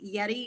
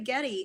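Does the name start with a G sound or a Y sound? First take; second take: Y sound; G sound. First: The name starts with a Y sound. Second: The name starts with a hard G sound. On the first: The person confirmed his name is said this way. "am I pronouncing that correctly, Yeti? And he nodded and said yes" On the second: Some people say the name this way. "I've heard some say Getty"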